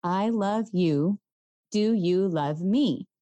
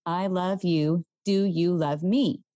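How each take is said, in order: First: Slow, spaced-out words; slow squeeze pattern. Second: Slow, evenly spaced words; one word per squeeze; gentle counting rhythm; slow squeeze pattern. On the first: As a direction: say each word as if squeezing a hand. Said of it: "The pattern is". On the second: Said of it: "you follow the pattern". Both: Shown as a demonstration.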